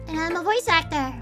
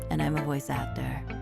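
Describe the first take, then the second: First: It is said in a happy tone. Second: It is said in a less happy tone.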